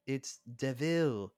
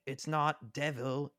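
First: "DeVille" said slowly as de-VILL; high, slow mock-character voice, "DeVille" ending on VILL; DeVille, stressed second syllable. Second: "devil" said slowly with the stress on DEV; high, slow mock-character voice, "devil" as DEV-il; devil, stressed first syllable. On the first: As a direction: draw out "DeVille", leaning on its last syllable. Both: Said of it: "Horace was like".

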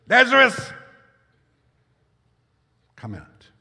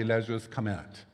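First: Loud cry. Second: Said in the usual way. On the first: A narrator's reading. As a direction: call the dead man out of the tomb with a great shout. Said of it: "he cried out in a loud voice". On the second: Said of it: "tell his spirit, his soul, his body".

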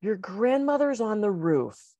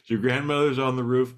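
First: Slow, careful, halting delivery; slow punchline. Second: Higher, louder amused echo; amused repeat. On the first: Acted. Friend on the phone, slow halting delivery. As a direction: break it gently. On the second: Real, not acted. Host repeating the joke line, higher amused echo. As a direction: savour the punchline.

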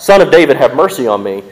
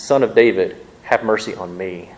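First: Screamed out. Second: Pleading. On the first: Woman screaming after Jesus in the street, loud cry. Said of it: "and screamed out". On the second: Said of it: "but she pleads". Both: Retold or imitated.

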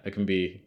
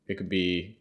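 No difference in how they are said.

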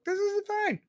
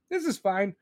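First: "This is fine" swooping up high, mocking; sarcastic sing-song. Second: Said in the usual way. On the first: Ranting host mocking people who ignore crime, sarcastic high "This is fine". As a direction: sneer "This is fine" like nothing's wrong. Sarcastic line, then said plainly.

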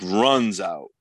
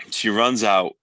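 First: RUNS drawn out slowly for emphasis; stress on RUNS. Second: Said in the usual way. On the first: Real, not acted. Podcaster stressing how urgently she left, slow emphatic RUNS. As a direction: lean hard and long on "runs", then let "out" fall.

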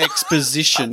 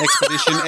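First: Exposition with a laugh, the right word; correct exposition. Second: Expedition, the wrong word said plainly. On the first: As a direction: give exposition with poz in the middle. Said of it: "That's the one". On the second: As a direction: say expedition as the mistake. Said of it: "Not expedition". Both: Shown as a demonstration.

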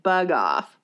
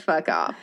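First: "bug off" starting on a b sound; "bug off" with a b where the f was; softened version. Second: "fuck off" with a clear f at the start; "fuck off" with the f sound plainly audible; plain retold phrase. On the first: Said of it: "I think he said". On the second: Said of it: "But I don't think he said". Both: Shown as a demonstration.

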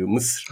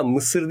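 First: "Mısır" run quickly into one syllable, Mısr. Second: "Mısır" with both vowels sounded; two-vowel Mısır. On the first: Showing the Arabic name without second vowel, quick Mısır. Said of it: "Böyle hızlı söyle". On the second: Correcting the usual Turkish name, two-vowel Mısır. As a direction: say "Mısır" in two full syllables, MI-SIR. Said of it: "İkinci ı yok galiba". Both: Shown as a demonstration.

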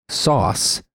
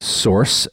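First: "sauce" said with no r, high and falling; sauce pronunciation. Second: "source" said with its r sounded, rising; British-sounding source. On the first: Host contrasting sauce with source, said with no r. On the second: Host showing the word source to listeners, said with a clear r. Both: Shown as a demonstration. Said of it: "the two words".

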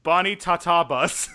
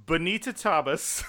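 First: Bonnie Tatabas, loud and slow as BON-ee ta-TAH-bus; second pronunciation attempt. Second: Bonita Tabas, said slowly as bo-NEE-ta TAH-bus; first pronunciation attempt. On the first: Co-host guessing a client's surname, loud slow try at Bonnie Tatabas. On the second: Co-host guessing a client's surname, slow first attempt at Bonita Tabas. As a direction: try Bonita Tabas carefully, "Bonita" like the name. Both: Shown as a demonstration. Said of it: "I think, different tries".

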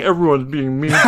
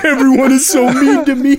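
First: Quick, laughing whine; whiny character voice. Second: Higher, louder sulky whine on so; whiny character voice. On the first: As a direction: whine it like a sulky cartoon character. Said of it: "the big-butted character saying". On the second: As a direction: stretch the so like a pouting cartoon. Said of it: "That's exactly what I thought". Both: Retold or imitated.

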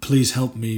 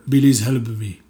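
First: Said in the usual way. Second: "Belize" with a B sound for P, loud. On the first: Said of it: "So when you do a real". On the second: Shown as a demonstration. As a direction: say "Belize help me", P turned into B. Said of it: "Everything's with a B".

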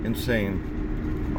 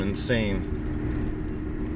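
First: Said in the usual way. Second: Breathy whispered "Insane" with a falling tune. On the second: Acted. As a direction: hush it, unvoiced, drawn out. Repeated word, second take whispered.

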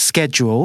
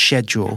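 First: SCHEDULE with a hard k; American pronunciation. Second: SCHEDULE starting with sh; "schedule" beginning like shed; British pronunciation. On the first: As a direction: say "schedule" as SKED-yool. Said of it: "more of a case". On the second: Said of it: "the British say schedule". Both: Shown as a demonstration.

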